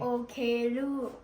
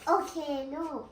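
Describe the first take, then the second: First: It is said in a deep, big voice. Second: It is said in the speaker's normal voice.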